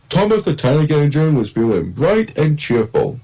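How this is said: It is narrated in an imitated narrator's voice. It copies another narrator's style. "I was doing an impression of Michelangelo"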